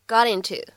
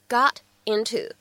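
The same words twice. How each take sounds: First: The words are linked, t becomes a flap. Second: The two words are said separately, clear t. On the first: "连读呢会变成got into" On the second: "这样的两个单词got into"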